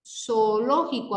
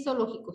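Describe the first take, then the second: First: "Zoológico" slow, the two o sounds held apart; drawn-out syllables. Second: Said in the usual way. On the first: Shown as a demonstration. Teacher shows a hiatus to students, "Zoológico" slowly sounded out. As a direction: stretch "Zoológico" so both o vowels are heard.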